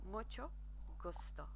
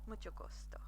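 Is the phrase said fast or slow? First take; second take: slow; fast. First: The phrase is said slowly. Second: The phrase is said quickly. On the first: "I'll say that a bit slower" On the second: "I forget that I speak too quickly"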